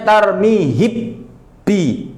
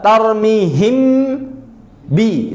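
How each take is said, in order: First: The m disappears, leaving a doubled b. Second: The lips close twice, for m then b. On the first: "mimnya hi, hilang" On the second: "Makhrajnya kerja dua kali. Untuk mim tarmihim, habis itu pindah untuk ba"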